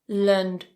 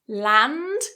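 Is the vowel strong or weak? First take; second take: weak; strong. First: The vowel is a weak, reduced schwa. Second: The vowel is full and strong. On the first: The speaker calls it right. "very weak" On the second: The speaker calls it wrong. "strong vowel"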